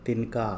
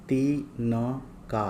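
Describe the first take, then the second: First: Said in the usual way. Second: Slow, drawn-out ती-न-का; syllable by syllable. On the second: Shown as a demonstration. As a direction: sound out तिनका in separate long syllables. Word broken up before blending.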